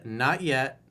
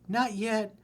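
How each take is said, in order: First: It is said in the speaker's normal voice. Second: It is said in a put-on girlish voice.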